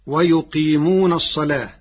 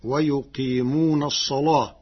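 First: الصلاة recited with a thin lam; louder recitation, الصلاة with a light "laa". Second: الصلاة recited with a thick, dark lam; heavy lam. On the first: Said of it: "بتغليظ اللام". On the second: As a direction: make the lam of الصلاة emphatic, "salaah" with a dark l. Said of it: "فتصير هكذا". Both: Shown as a demonstration.

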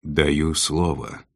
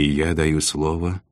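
First: Slow, deliberate pledge; measured, solemn promise from a ruler; weighty. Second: Said in the usual way. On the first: A narrator's reading. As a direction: give each word weight, taking your time. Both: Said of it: "веско произнёс повелитель Нави".

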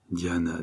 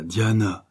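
First: Softer, hushed and afraid; muffled fear. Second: Said in the usual way. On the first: A narrator's reading. Frightened lover pleading with Diana, hushed. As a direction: breathe her name in dread. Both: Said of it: "sourdement Morales effrayé".

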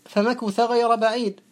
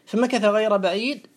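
First: The Quranic reading with مكث voiced "ma-KU-tha"; damma on kaf. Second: The Quranic reading with مكث voiced "ma-KA-tha"; fatha on kaf. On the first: Teacher showing the second of two recitation readings, مكث pronounced "makutha". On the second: Teacher showing the first of two recitation readings, مكث pronounced "makatha". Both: Shown as a demonstration. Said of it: "فيه مكث بالفتح ومكث بالضم".

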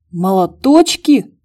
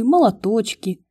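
First: Slow, louder incredulous question; can't believe what he heard; indignant disbelief. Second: Said in the usual way. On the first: Acted. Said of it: "возмутился братец". (возмущённое недоумение)

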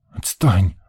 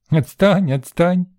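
First: Curt, unfriendly brush-off; sullen boy. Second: High-pitched mimicking tease; teasing little girl. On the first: Boy shrugs off the little girl, sullen. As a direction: shrug it off in a short grumble. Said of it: "Рыжов дёрнул плечом". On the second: Girl playfully echoes the boy's word, high and teasing. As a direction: parrot it back like a gleeful child. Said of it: "засмеялась девчонка". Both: A narrator's reading.

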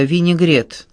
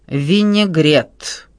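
First: Said in the usual way. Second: Very slow, drawn-out ВИНЕГРЕТ with disdain; waiter's disdainful, dragged-out explanation; contemptuous. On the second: A narrator's reading. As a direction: stretch «винегрет» out scornfully. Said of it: "с презрением в голосе пояснил официант".

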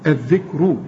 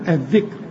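First: الذكر ending in a heavy "ru"; continuing, heavy ra. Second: الذكر ending on a thin, light r with no vowel; stopping, light ra. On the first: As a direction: round the final r of الذكر into a thick u. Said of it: "مضمومة، هفخم". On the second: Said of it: "هنرقق الراء". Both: Shown as a demonstration.

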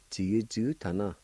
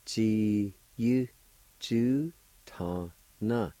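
First: Said in the usual way. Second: "ji yu ju ta na" slowly, in separate syllables. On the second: Shown as a demonstration. Teacher putting both parts together, "ji yu ju ta na" slowly separated. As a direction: space out every syllable of "ji yu ju ta na".

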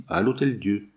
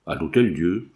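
First: Said in the usual way. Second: "À l'Hôtel-Dieu" echoed as a question, rising at the end; mild exclamation, "l'Hôtel-Dieu" turned up in disbelief; startled question. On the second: A narrator's reading. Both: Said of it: "s'écria l'inconnu".

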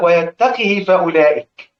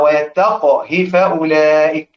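First: ويتقه with the qaf voweled, imitating the wrong reading. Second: ويتقه with a silent qaf that bounces in qalqala, slow; correct qalqala. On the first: Teacher imitating reciters who read ويتقه wrongly, qaf voweled. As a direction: say ويتقه as "wa-yattaqih" with a kasra on the qaf, slowly. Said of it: "بيجوا في القاف يقول لك". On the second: Shown as a demonstration. Teacher demonstrating the correct reading of ويتقه to students, slow, qaf with qalqala. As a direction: say ويتقه as "wa-yattaq-h", qaf stopped with an echoing qalqala. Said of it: "وقل بسكون القاف".

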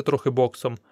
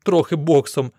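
First: Said in the usual way. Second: Louder echo of "Трохи боксом" as a disbelieving question; incredulous echo. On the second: A narrator's reading. Admirer repeats the fighter's modest answer, incredulous. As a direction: throw "Трохи боксом" back in amazement.

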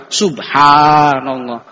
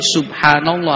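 First: Subhanallah with the ha drawn out long, slowly. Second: Subhanallah with a short, clipped ha. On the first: Preacher shows congregation the right subhanallah with long ha. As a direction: stretch the ha in subhanallah, slow. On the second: Preacher shows congregation the wrong subhanallah with short ha. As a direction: say subhanallah quickly, the ha kept short. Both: Shown as a demonstration. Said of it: "haknya harus panjang".

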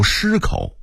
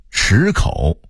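First: 失口 with a first-tone shī; level tone on 失 in 失口, not shǐ; Beijing reading. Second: Said in the usual way. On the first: Shown as a demonstration. Narrator contrasting word lists, Beijing reading. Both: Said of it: "北京话读失口".

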